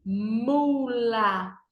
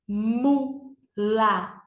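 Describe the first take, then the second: First: Mula drawn out as unbroken "mmmuulllaa"; sounds blended. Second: Mula split into "mu... la"; syllable by syllable. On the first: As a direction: join the sounds of Mula without a gap. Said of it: "Vamos fazer o sonzinho". (Mula esticado, sem pausa: "mmmuulllaa") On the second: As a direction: pause between the two syllables of Mula. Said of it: "Duas sílabas". (Mula em sílabas: "mu... la") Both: Shown as a demonstration.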